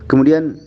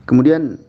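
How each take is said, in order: Both takes have the same delivery.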